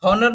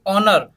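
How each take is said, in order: First: हॉनर with the H sounded; हॉनर with an audible H; wrong pronunciation. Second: ऑनर with a silent H, starting on the vowel; ऑनर, H dropped; correct pronunciation. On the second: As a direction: say ऑनर without the H. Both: Shown as a demonstration. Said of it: "हॉनर नहीं बोलेंगे इसको".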